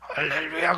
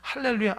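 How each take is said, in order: First: The voice is hoarse and badly strained. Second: The voice is clear and fresh, not strained. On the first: This person prays at the top of the mountain. "저 사람 목소리가 맛이 갔기 때문에" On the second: This person prays only at the bottom of the mountain. "저 사람 초입에서 기도하는 사람이구나"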